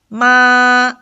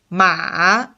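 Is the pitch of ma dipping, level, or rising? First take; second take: level; dipping. First: The pitch stays high and level throughout. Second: The pitch dips low and then turns up. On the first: "the first tone is from five to five... it doesn't change... the flat tone" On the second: "there's an obvious turn in this sound... the V tone"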